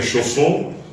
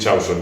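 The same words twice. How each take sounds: First: The name is said with French sounds. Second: The name is said with Spanish sounds. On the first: "En Francia me dicen Chausson" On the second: "en España me dicen Chausson"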